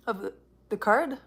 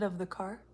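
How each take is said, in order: First: Card, with a clear final d. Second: Car, said with no final d; car without the d. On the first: Fixing her slip, she says card with the d. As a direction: say card, ending on d. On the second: Repeating her slip, she says car without the d. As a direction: say car, dropping the d of card. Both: Shown as a demonstration. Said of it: "I said of the car".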